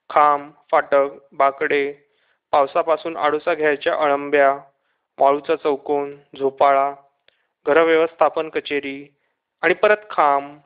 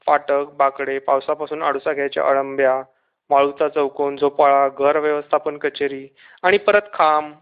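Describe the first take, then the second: First: Low, measured list with pauses; item-by-item listing. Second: Low monotone list without pauses; run-on listing. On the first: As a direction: tick off each sight separately. Sights listed, passing one by one. (एकेक शब्द थांबून, खालच्या सुरात) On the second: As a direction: reel off the sights like a merry-go-round. Same sights circling past again. (न थांबता, एकसुरी यादी) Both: A narrator's reading.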